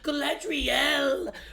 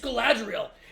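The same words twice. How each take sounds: First: The R is rolled for a long time. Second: The R is said plainly, without rolling. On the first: The speaker calls it wrong. "I hate when they say Galadriel" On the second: The speaker calls it right. "It's Galadriel"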